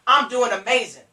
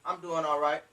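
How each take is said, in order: First: Loud, enthusiastic answer; upbeat sponsor. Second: Low, soft, lackluster answer; unenthusiastic. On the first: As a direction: sell how great your day is. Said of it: "you need to be doing amazing". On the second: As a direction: answer with no energy at all. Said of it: "Don't say". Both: Shown as a demonstration.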